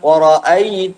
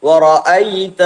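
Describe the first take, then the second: No difference in how they are said.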